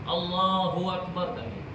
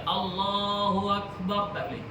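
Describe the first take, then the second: The two takes are said the same way.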